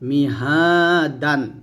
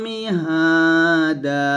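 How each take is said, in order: First: The word ends with an n sound. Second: The word ends with a long a vowel. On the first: The reading continues without stopping. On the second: The reading stops on this word.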